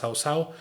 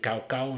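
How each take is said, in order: First: The name is said with Chinese pronunciation. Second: The name is said with Spanish pronunciation. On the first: "en chino se pronuncia Cao Cao" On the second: "se escribe Cao Cao en español"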